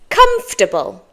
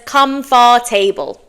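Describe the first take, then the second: First: It is said differently from its spelling. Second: It is said the way it is spelled. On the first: The speaker calls it right. "But it's" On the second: The speaker calls it wrong. "it looks like it should be said as"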